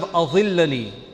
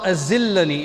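First: The middle consonant is a heavy dh sound. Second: The middle consonant is a plain z sound. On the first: Grant me shade. The speaker calls it right. "instead of azillani" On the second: Cause me to slip. The speaker calls it wrong. "She's saying, Allahumma azillani"

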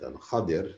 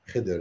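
First: The name is said with two syllables, Kha-dir. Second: The name is said as one short syllable. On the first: This is the classical Arabic form. "that is the real Arabic, classical Arabic pronunciation" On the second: This is the commonly known form. "Khidr is what we all know"

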